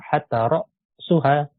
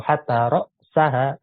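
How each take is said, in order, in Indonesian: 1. Kata benda itu dibaca dengan harakat marfu'. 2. Kata benda itu dibaca dengan harakat mansub. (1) "Bisa marfu"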